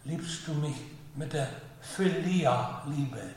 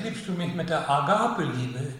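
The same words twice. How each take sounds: First: Slow, leaning hard on Philia-Liebe; stress on Philia-Liebe. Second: Said in the usual way. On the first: Shown as a demonstration. Preacher contrasts the Lord's question, slow stress on Philia-Liebe. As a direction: set Philia-Liebe apart slowly from Agape. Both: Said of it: "sondern sagt er".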